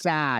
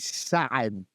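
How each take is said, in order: First: It is one plain vowel, no throaty sound. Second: A throaty guttural sound splits the vowel. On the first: "You just go" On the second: "it's a guttural ayin"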